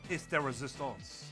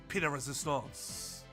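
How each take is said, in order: First: The first word ends with an s sound. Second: The first word ends without an s sound. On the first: "and then the second time I did" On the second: "At first, I didn't use like pronounce the C at all"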